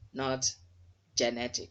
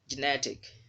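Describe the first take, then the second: First: The stress is on the first syllable. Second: The stress is on the second syllable. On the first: The speaker calls it wrong. "you've put the stress mark on the first on the first syllable G E" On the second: The speaker calls it right. "you should not put emphasis on it. You should just glide over it"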